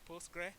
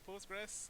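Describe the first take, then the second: First: The name ends without an s sound. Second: The name ends with an s sound. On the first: The speaker calls it right. "I want us to say Postgre" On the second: The speaker calls it wrong. "people s- literally pronounce it Postgres"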